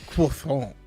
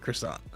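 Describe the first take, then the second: First: The word is pronounced with a French sound. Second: The word is pronounced with an English sound. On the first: It sounds overly fancy for everyday speech. "I'm not the guy who's gonna say a croissant" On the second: It is the everyday local way to say it. "I'm gonna say croissant"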